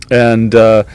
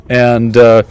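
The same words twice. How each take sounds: The two takes are said the same way.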